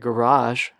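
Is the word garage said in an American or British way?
American. The word is said with an American pronunciation. "instead of garage"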